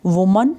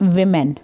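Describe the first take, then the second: First: Woman with rounded first vowel, set apart clearly; singular pronunciation. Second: Women drawn out, short i then clear e; plural pronunciation. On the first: Teacher contrasts singular with plural, pronouncing woman as "WU-mun". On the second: Teacher contrasts plural with singular, pronouncing women slowly as "WI-men". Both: Shown as a demonstration. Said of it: "हम pronunciation से ही पता करते हैं".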